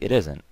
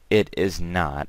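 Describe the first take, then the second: First: 'Is not' is run together as 'isn't'. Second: 'Is not' is said as two full words. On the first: "I can say" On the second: "You don't necessarily have to say"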